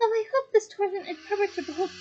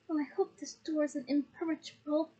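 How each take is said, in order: First: It is said in Hermione's voice. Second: It is said in another character's voice.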